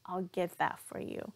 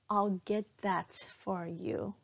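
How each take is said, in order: First: The T in 'that' is cut off and links into 'for'. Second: The T in 'that' is fully released before 'for'. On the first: The speaker calls it right. "that stop T right there" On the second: The speaker calls it wrong. "if I were to say it with that true T in that, it's going to be really awkward"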